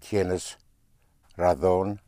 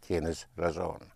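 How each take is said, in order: First: The z is pronounced like th. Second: The z is pronounced like s. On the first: "tienes razón in Castilian Spanish" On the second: "but otherwise tienes razón"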